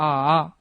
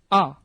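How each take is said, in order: First: The vowel is said in the third tone. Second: The vowel is said in the fourth tone. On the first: "삼성으로 가면" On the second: "사성으로 가면"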